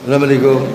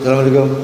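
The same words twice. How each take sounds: Both takes have the same delivery.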